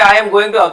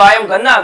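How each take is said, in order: First: Going to is said as two full words. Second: Going to is squeezed into one word, gonna.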